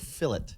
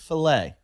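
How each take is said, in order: First: The word is pronounced the English way. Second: The word is pronounced the French way. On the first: The speaker calls it wrong. "you guys go fillet" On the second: The speaker calls it right. "it's a French word. It's filet"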